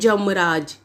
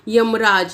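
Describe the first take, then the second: First: The word begins with a 'j' sound. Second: The word begins with a 'y' sound. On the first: The speaker calls it wrong. "यमराज को कैसे बोल दिया जाता है" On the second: The speaker calls it right. "जैसे यमराज"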